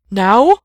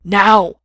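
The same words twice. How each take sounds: First: Loud question, pitch rising steeply; alarmed, high-rising "now?"; hesitant cry. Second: Loud, emphatic command; urgent, forceful "now!"; called out. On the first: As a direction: shout it as an unsure question. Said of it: "cried, obviously hesitant". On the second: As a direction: shout it as a firm order. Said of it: "just called out to him again". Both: A narrator's reading.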